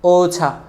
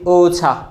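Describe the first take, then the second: The two takes are said the same way.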